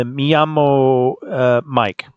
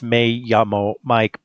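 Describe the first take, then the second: First: Hesitant 'me llamo' with me said as 'mee', drawn out; mispronounced Spanish. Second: 'me llamo' with me said as 'may'; corrected Spanish pronunciation. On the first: Real, not acted. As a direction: say 'me llamo' slowly, me rhyming with see. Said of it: "I know I said it wrong". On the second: Shown as a demonstration. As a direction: say 'me llamo' as 'may YA-mo', without hesitating. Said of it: "I think the correct way is".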